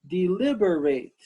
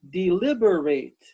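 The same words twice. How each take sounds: The two takes are said the same way.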